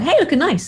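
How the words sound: It sounds casual and nonchalant.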